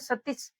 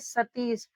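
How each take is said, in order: First: The second-syllable vowel is short. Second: The second-syllable vowel is long. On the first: The speaker calls it wrong. "सतीश ऐसे नहीं पढ़ते" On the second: The speaker calls it right. "इसलिए बड़ी ई की मात्रा लगेगी"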